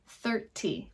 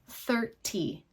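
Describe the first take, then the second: First: It is said in a British accent. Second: The same.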